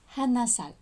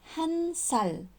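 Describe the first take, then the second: First: An extra vowel is inserted between the syllables. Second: The consonant links straight into the next syllable. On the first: The speaker calls it wrong. "et pas 한아살" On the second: The speaker calls it right. "la liaison se fait comme 한 살"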